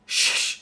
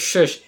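First: Soft, drawn-out voiceless shhh; quiet hissed shushing sound; long shush. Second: Said in the usual way. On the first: Retold or imitated. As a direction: hush them with a long "shhh". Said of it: "on the screen goes". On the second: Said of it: "everyone in the theater goes".

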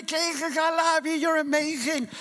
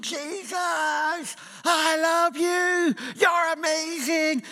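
First: High, quicker mock praise cry; crazy praise. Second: High, drawn-out ecstatic shout of praise. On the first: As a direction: toss off the praiser's cry again, lighter and faster. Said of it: "And he's going crazy". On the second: Retold or imitated. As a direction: call out slowly to Jesus like a crazy praiser at the back. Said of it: "He would be standing at the back shouting".

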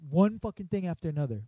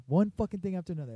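First: Higher, louder huffy complaint; imitating a fed-up woman storming out; mock angry rant. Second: Higher, louder, rushed grumble; faster mock angry rant. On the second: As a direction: repeat it quicker while walking off. Angry customer storming off.

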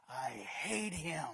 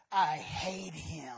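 First: Low, slow spiteful mutter; sullen hater. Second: Slow, low grumbling grudge; sullen hater. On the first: Critic repeats grudge. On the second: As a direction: grumble it with spite. Critic of preachers voiced. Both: Retold or imitated.

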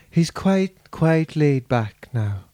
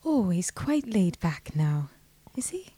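First: Put-on slow, laid-back Donegal accent. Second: Put-on low, soft, airy Donegal accent. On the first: Host trying a singer's voice, slow Donegal accent. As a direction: ease slowly into a Donegal lilt. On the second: Guest echoing the host's singer impression, soft low Donegal accent. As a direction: murmur it in a laid-back Donegal lilt. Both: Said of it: "what [name] sounds like".

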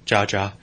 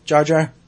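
First: "Jar Jar." falling, lower and flat; deadpan confirm "Jar Jar." with a falling tune; resigned answer. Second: Rising, asking "Jar Jar?"; questioning. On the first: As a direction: droid sighing out "Jar Jar." downward. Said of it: "C three P O". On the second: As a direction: say "Jar Jar?" as a puzzled question with an upward tune. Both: Retold or imitated.

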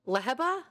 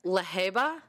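First: "Leheba" as LEH-huh-buh, higher and questioning; short EH up front in "Leheba"; alternate name pronunciation. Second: "Leheba" as luh-HAY-buh, questioning; trying a name pronunciation. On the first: Reader tries out a hard character name, LEH-huh-buh. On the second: Reader tries out a hard character name, luh-HAY-buh. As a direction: stress a long HAY in "Leheba". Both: Shown as a demonstration. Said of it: "both ways we pronounce it".

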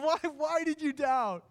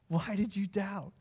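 First: Much higher, drawn-out heartfelt why; anguished plea. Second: Gentle question. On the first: Jesus pleading with Peter after he sank, high and aching. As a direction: ache over the word why, slowly. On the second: Jesus asking Peter kindly why he doubted, gentle and calm. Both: Acted. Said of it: "because inflection matters".

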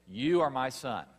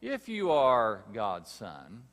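First: Louder, higher, commanding pronouncement; voice from heaven. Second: Slow, louder, sly doubting question; tempter's challenge. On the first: Preacher repeating God's word over Jesus, loud and commanding. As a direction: declare it with heaven's authority. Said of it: "The voice from heaven says". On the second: Preacher voicing the devil's challenge to Jesus, slow and insinuating. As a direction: drag out the doubt in "If". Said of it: "the tempter saying to Jesus". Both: Acted.

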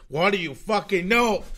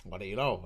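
First: Angry retort. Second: Said in the usual way. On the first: Acted. Repeated retort to chat, louder.

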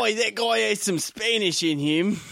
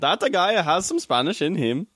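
First: A much higher, slower "Oi" version of a bad Spanish accent; failed Spanish accent. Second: Put-on a would-be Spanish accent that slides into Russian, pitched higher; failed Spanish accent. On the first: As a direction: ham up a bad Spanish accent, slow and high. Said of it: "I don't even want you to do Spanish". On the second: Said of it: "jumped to Russia".

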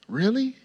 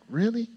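First: Rising, eager question; light, eager, mock-excited question; excited really. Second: High rising, thrilled question; a touch of thrilled disbelief; excited. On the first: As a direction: ask it like you can't believe the good news. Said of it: "Not, like, doubting God, but, like, excited". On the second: Retold or imitated. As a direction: sound delighted, not doubtful. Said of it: "but, like, excited".

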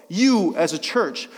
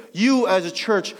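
No difference in how they are said.

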